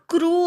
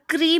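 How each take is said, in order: First: The syllable ends in an 'oo' vowel. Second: The syllable ends in an 'ee' vowel. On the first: The speaker calls it right. "इथे क्रू आहे" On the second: The speaker calls it wrong. "खूप जण क्री म्हणतात, तो चुकीचा उच्चार आहे"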